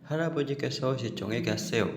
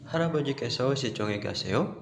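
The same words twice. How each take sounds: First: The voice falls at the end, as a statement. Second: The voice rises at the end, as a question.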